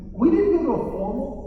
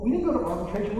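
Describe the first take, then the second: First: "didn't" punched high and loud; stress on didn't. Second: Said in the usual way. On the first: Shown as a demonstration. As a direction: hit "didn't" hard and rising.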